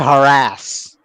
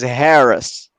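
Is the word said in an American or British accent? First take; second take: American; British. First: The word is said with an American pronunciation. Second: The word is said with a British pronunciation. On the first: "Americans ... We say harass" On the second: "So in British English, the word is Harris"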